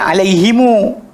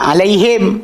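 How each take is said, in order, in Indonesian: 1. Kata ini berakhir dengan vokal u tambahan di akhir. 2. Kata ini berakhir dengan vokal i setelah h. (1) "kabilah sekian baca alaihimu" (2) "kabilah Quraisy baca alaihim"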